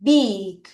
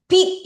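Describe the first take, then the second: First: Long, lower-pitched "big" with voiced B; correct B sound. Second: "big" as a short, high, loud wrong version; wrong B sound. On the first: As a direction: model "big" low, starting on a clear B. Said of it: "이거 아니야? b". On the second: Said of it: "이거 아니야". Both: Shown as a demonstration.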